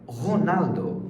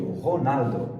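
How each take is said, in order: First: Said in the usual way. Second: Ronaldo with a uvular French R; Ronaldo, throaty R at the start; French-accented Ronaldo. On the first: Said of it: "essa se pronuncia". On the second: Shown as a demonstration.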